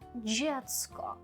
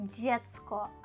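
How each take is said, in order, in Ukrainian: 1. Перший приголосний вимовляється м'яко. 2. Перший приголосний вимовляється твердо. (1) "а дзєцько" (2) "не дзєцько"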